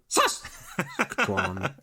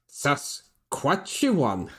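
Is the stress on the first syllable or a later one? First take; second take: first; later. First: The stress is on the first syllable. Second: The stress is on a later syllable. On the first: The speaker calls it right. "emphasis is on the first syllable" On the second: The speaker calls it wrong. "we were pronouncing Saskatchewan"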